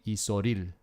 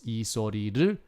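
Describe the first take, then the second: First: The phrase is said quickly and run together. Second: The phrase is said slowly and in full. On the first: "if you say it quickly" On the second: "if you wrote it out the long way"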